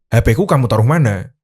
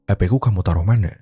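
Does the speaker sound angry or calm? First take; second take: angry; calm. First: It is said in an angry tone. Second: It is said calmly, without anger.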